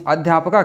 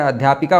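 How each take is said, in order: First: अध्यापका with a plain "pa-kaa", no i sound; misspelt form. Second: अध्यापिका with a short i after p; corrected form. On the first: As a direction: read out the faulty अध्यापका. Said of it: "शब्द गलत लिखा है". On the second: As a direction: give the correction अध्यापिका, "pi-kaa". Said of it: "अध्यापिका होता है". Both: Shown as a demonstration.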